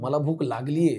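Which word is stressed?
लागली. The stress falls on the last word. The hunger has actually set in. "ह्याच्यात लागलीला महत्त्व आहे"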